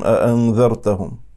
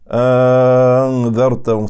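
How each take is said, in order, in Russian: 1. Гласный произносится коротко, без удлинения. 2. Гласный тянется, произносится с удлинением. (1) "это мы читаем «аандартагум»" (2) "Они читают с мадом"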